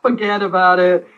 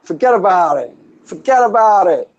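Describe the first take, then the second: First: Slow mock New York "Forget about it"; New York accent. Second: Laughing, higher mock New York "Forget about it"; New York accent. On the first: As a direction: drag it out like a wiseguy. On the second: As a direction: repeat it like a grinning wiseguy. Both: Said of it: "that's my New York".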